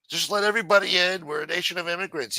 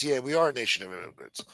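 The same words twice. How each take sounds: First: Higher sneering parody of a slogan; mocking quote. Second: Said in the usual way. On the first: Ranter parroting immigration supporters, higher sneering mock.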